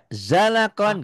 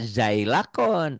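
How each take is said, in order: First: The first syllable is pronounced 'za'. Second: The first syllable is pronounced 'zai'. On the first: The speaker calls it right. "Za aja" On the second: The speaker calls it wrong. "Jangan dibaca zailakon"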